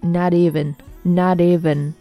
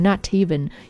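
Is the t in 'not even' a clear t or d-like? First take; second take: d-like; clear t. First: The t sounds like a quick d. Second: The t sounds like a clear t. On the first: "就是读成类似于d 的音，所以就变成not even" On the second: "当然你读成not even 也是正确的"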